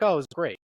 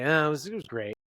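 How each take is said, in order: First: Upbeat, louder and higher delivery; excited. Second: Hesitant, half-hearted enthusiasm; disappointed. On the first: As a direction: say it like good news. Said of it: "not as excited as usual". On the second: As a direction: let the letdown show through polite words. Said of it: "you're sort of disappointed". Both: Shown as a demonstration.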